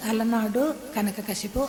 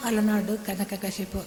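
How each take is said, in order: Both takes have the same delivery.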